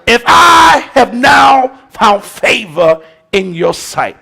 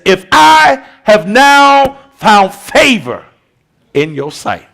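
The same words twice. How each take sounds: First: If I have now found favor in your sight proclaimed slow and loud; louder, slow proclaimed quote. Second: If I have now found favor drawn out, falling away on in your sight; slow stately quote. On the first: Pastor repeating Nehemiah's plea louder, proclaimed. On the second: Pastor quoting Nehemiah's plea, slow and stately. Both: Shown as a demonstration. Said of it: "There go that favor in your sight again".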